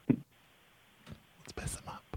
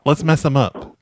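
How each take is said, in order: First: Slow, breathy plotting whisper, much softer; conspiratorial whisper. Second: Said in the usual way. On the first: Shown as a demonstration. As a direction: hush it like a prankster scheming.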